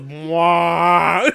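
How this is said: It is said in a Muppet-like voice.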